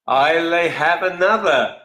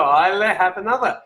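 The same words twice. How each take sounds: First: Slow mock Scottish "I'll have another"; a playful Scottish toast, drawn out; Scottish accent. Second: Put-on Scottish accent. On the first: Host reading a viewer's drink name, in a light Scottish accent. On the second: Host savouring a viewer's suggested name, in a hammed Scottish accent. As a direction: repeat it with a Scottish lilt. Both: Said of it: "play on the whole sort of Scottish accent".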